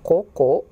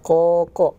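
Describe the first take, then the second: First: The vowel is said with rounded, pushed-out lips. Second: The vowel is said with spread, smiling lips. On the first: The speaker calls it wrong. "Bukan koko" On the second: The speaker calls it right. "Caranya coba sambil senyum"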